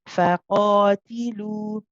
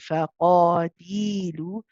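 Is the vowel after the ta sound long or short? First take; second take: short; long. First: The vowel after the ta is kept short. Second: The vowel after the ta is drawn out. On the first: The speaker calls it right. "Be careful not to do that" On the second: The speaker calls it wrong. "You don't want to be prolonging the the ta. It's easy to do after prolonging the qaf"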